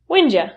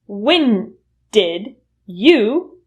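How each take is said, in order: First: The words blend together into a shortened form. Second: Each word is said fully and separately. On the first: "reduce to when'd ya" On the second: "When did you will reduce to"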